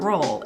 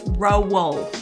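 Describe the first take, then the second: First: The O vowel sounds plain and non-Australian. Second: The O vowel sounds long and Australian. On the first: "it's not roll" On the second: "it's roll ... say an Australian O, long O"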